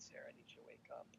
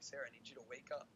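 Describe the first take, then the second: First: It is said gently and softly. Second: It is said a little bit louder.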